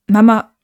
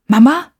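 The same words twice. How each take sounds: First: Louder, without a questioning rise; insistent address. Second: Higher, louder, rising call; startled question. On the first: Acted. Boy appeals to mother to come home, insistent. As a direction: address her firmly to make an appeal. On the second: A narrator's reading. Boy suddenly sees his mother, startled question. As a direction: ask it in startled surprise. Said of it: "Luke erschrak".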